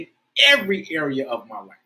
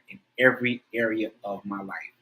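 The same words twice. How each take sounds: First: It is said with strong, heartfelt emotion. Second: It is said flatly, like a plain recitation. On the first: The words are truly felt. "you've got to try to feel it" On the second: The words are just being recited. "That that was a recitation to get the words right"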